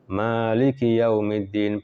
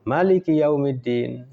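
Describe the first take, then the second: First: The vowel after the m is long. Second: The vowel after the m is short.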